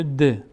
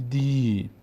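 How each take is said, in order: First: د as short "de"; short vowel. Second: دی as long "dii"; long vowel. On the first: Teacher reads dal with kasra, short "de". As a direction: say د with a brief e. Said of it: "دال کسره داره". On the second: Teacher adds ya to dal, long "dii". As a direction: hold the ee in دی. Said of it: "چون بعدش یا آمده". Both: Shown as a demonstration.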